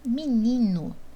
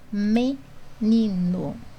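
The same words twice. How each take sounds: First: The first vowel is reduced, as in casual speech. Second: The first vowel is said as a clear E. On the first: This is how the word sounds in the speaker's regional accent. "Eu posso até falar menino" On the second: This is how the word is spelled in standard writing. "eu tenho que escrever menino"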